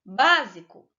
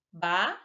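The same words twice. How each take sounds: First: Said in the usual way. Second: "Básico" split into bá, si, co; teacher sounding out "Básico" with pauses; syllable by syllable. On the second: Shown as a demonstration. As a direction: break "Básico" into three separate syllables. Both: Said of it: "a sílaba tônica foi a antepenúltima".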